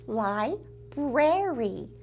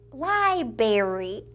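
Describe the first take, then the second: First: "library" drawn out with both r sounds; correct pronunciation. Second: "library" with the first r dropped, lie-berry; childish mispronunciation. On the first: Host teaching children the proper word, "library" said slowly as lie-brair-ee. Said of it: "taught you the correct pronunciation". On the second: Host recalling her little-girl word, "library" said as lie-berry. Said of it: "I pronounced it library". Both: Shown as a demonstration.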